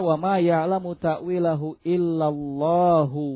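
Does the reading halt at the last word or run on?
runs on. The reading flows on past Allah without stopping. Those firm in knowledge also know its interpretation. "yang menyambung. Tak berhenti"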